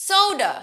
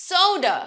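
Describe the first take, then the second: Both takes have the same delivery.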